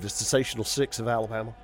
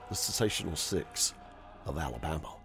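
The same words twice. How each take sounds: First: The phrase is spoken at a fast pace. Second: The phrase is spoken at a slow pace. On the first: The speaker calls it wrong. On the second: The speaker calls it right.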